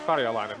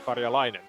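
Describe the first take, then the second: First: The stress is on the first syllable. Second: The stress is on a later syllable. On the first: The speaker calls it right. "emphasis on the fil- first syllable" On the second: The speaker calls it wrong. "not Karjalainen"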